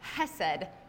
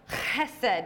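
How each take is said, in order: First: It begins with a soft English ch sound. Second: It begins with a rough sound from the throat. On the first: The speaker calls it wrong. "Not chesed" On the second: The speaker calls it right. "It's got that guttural, like, reach all the way to the back of your throat"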